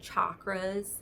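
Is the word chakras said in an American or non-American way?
American. The word is said in an American way. "I say it really American"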